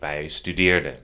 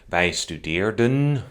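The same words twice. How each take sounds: First: The final n is left off. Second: The final n is clearly pronounced. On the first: The speaker calls it right. "but I say wij studeerden" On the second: The speaker calls it wrong. "I don't say wij studeerden"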